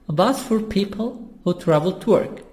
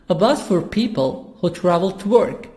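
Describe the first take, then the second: No difference in how they are said.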